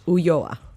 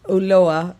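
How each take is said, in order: First: The name is pronounced with Spanish sounds. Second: The name is pronounced with English sounds. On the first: "In Spanish" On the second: "in English"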